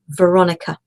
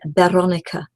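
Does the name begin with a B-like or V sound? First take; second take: V sound; B-like. First: The name begins with an English V sound. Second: The name begins with a soft B-like sound. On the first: "but you're not English" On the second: "their V is more like a B"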